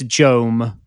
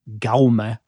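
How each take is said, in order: First: The name begins with a J sound. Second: The name begins with a hard G sound. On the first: This is how the commentator said it. The speaker calls it wrong. "he decided that it was Jome" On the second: This is the Catalan way of saying it. The speaker calls it right. "the J would be pronounced as a G"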